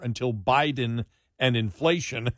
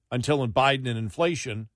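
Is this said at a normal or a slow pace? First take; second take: slow; normal. First: The words are said at a slow pace. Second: The words are said at a normal pace.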